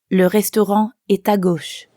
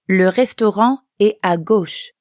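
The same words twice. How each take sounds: First: A t sound joins 'est' to 'à'. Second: The words 'est' and 'à' are kept separate. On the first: "with the liaison" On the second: "Without the liaison"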